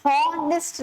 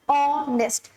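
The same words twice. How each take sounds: First: हॉनेस्ट said with a clear breathy h at the start; wrong pronunciation with h. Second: ऑनेस्ट opening straight on the vowel, no h at all; silent h. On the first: Teacher showing students the wrong way, हॉनेस्ट with the h sounded. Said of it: "हम हॉनेस्ट नहीं बोलते". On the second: Teacher giving students the correct form, ऑनेस्ट with no h. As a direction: say ऑनेस्ट with the h dropped. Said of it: "हम बोलते हैं ऑनेस्ट". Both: Shown as a demonstration.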